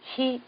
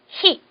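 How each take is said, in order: First: The h is weak, sounding almost like i. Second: The h is strong, with throat tension. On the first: The speaker calls it wrong. "목에 힘을 주지 않고 이렇게 발음을 하잖아요" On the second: The speaker calls it right. "목에다가 좀 힘을 주셔야 됩니다"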